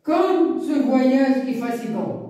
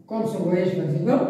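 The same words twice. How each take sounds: First: Slow, "Comme" stressed, falling; drawn-out tired exclamation; exclamative reading. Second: Said in the usual way. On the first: Shown as a demonstration. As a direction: sigh it out as a weary exclamation. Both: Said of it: "c'est une phrase exclamative".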